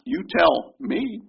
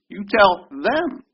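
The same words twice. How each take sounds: First: Slow, high "You tell me" with "me" stressed; slow wrong version. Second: Slow, high "You tell them", "them" hit and rising; slow down and land on "them"; stress on them. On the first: Pastor showing the reading the congregation does not mean, slow with "me" stressed. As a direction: drag it out, leaning on "me". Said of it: "It's not". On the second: Pastor giving the right reading, slow with "them" stressed and rising. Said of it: "No, it's". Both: Shown as a demonstration.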